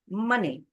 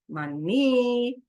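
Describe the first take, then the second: First: The stress is on the first syllable. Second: The stress is on the second syllable. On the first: The speaker calls it right. "the stress syllable is on the first syllable" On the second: The speaker calls it wrong. "I don't say money"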